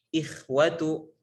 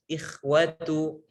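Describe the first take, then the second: Both takes have the same delivery.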